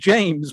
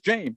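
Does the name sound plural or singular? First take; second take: plural; singular. First: The name is said with its usual final s. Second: The name is said as a singular form. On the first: This is the name as it is really said. "His actual name is" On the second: The name should not sound like more than one son. "his mother thinks it's"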